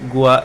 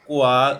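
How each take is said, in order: First: It begins with a plain, lax g sound. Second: It begins with a tense, hard k sound.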